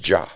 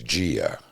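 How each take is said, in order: First: The I is silent, giving a single syllable. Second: The I is heard as a separate vowel. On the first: This is the Italian way of saying it. The speaker calls it right. "it's Ja" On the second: This is the American way of saying it. The speaker calls it wrong. "the name that uh, Americans give their daughters"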